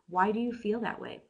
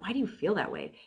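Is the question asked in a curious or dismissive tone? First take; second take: curious; dismissive. First: It is asked in a sincere, curious tone. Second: It is asked in a dismissive, challenging tone. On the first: The asker genuinely wants to understand. The speaker calls it right. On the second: The asker is challenging the other view. The speaker calls it wrong.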